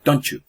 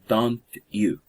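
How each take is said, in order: First: The two words blend into one sound. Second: The two words are said separately.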